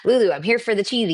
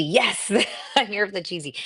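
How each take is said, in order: First: Said in the usual way. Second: Repeating the comment through a real laugh. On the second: Real, not acted. To her live chat, echoing a viewer's comment with a laugh. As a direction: laugh as you say it back, delighted.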